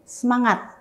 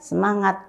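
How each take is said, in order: First: The word is said lively with high energy. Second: The word is said flatly with low energy. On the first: The speaker calls it right. "harus senada antara wajah dan ini" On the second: The speaker calls it wrong. "jangan semangat, aduh mana semangat, ngomongnya aja nggak semangat"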